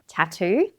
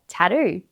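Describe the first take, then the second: First: The T is a crisp, fully released T. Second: The T is softened, not a crisp T.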